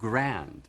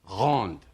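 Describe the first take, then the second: First: The word has an English pronunciation. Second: The word has a French pronunciation. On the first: The speaker calls it right. "it's grand" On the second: The speaker calls it wrong. "using the French pronunciation"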